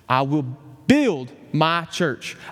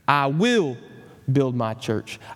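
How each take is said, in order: First: The word "build" carries the stress. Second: The word "will" carries the stress.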